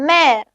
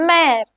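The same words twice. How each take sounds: The two takes are said the same way.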